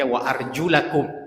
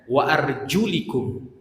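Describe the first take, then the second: First: The vowel after arjul is an a. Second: The vowel after arjul is an i. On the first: The feet are to be washed. "kalau kita itu membaca wa arjulakum" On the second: The feet are only to be wiped. "Kalau mereka membaca wa arjulikum"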